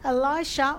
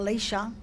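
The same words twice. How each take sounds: First: The name is said the usual English way. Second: The name is said the original Hebrew way.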